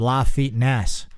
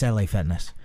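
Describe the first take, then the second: First: LA is said as one word, 'la'. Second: LA is said as two separate letters. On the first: The speaker calls it wrong. "I want to go over to that Spanish gym" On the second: The speaker calls it right. "that's L A Fitness"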